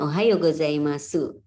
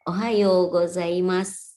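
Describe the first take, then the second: First: The final u is fully and clearly voiced. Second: The final u is held back, barely heard. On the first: The speaker calls it wrong. "bukan ohayo gozaimasu" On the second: The speaker calls it right. "U-nya ditahan"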